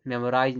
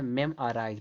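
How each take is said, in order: First: Quick "मेमोराइज" with a full o; wrong pronunciation. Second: "मेमोराइज" as mem-a-raaiz; "मेमोराइज", middle o reduced to a; correct pronunciation. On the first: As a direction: say "मेमोराइज" as mem-o-raaiz. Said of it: "नहीं पढ़ा जाता है". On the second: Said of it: "पढ़ा जाता है". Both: Shown as a demonstration.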